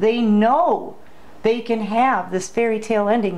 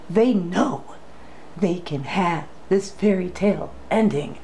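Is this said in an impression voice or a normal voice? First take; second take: normal; impression. First: It is said in the speaker's normal voice. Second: It is said in a dramatic impression voice.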